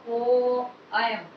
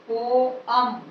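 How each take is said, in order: Both takes have the same delivery.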